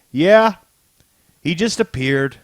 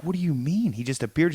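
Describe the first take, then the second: First: Retold insistent answer, high loud "Yeah"; emphatic confirmation. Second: Mock-baffled question, a little softer; incredulous question. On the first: Agents answer their boss about Doom, emphatic. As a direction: confirm it firmly, as if stating the obvious. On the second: She reacts to Doom turning up, incredulous. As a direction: ask it in disbelief, retelling her reaction. Retelling her baffled reply.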